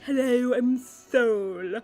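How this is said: It is said in a put-on, lisping voice.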